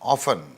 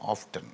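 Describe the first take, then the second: First: The t sound is silent. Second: The t sound is pronounced. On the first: This is the older taught pronunciation. "టీ silent అని మాకు పెద్దలు నేర్పించారు" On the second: This is the newer pronunciation some educated speakers use. "Highly educated people American యూనివర్సిటీస్లో ఆఫ్టన్ అంటారు"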